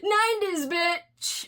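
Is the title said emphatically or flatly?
emphatically. The title is said with loud, sassy emphasis. The speaker calls it right. "I would normally be like"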